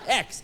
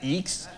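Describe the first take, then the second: First: The vowel sounds like the 'e' in 'bed'. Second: The vowel sounds like the 'ee' in 'see'. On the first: The speaker calls it right. "It's X" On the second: The speaker calls it wrong. "not Eeks"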